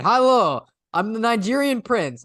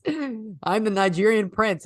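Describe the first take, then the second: First: Put-on Nigerian prince in a raised, louder Russian accent; hammed-up Russian accent, pitched high and loud. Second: Put-on slow, drawn-out Russian accent, pitched higher; lightly hammed Russian accent, stretched out slowly. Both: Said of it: "like, a Russian accent".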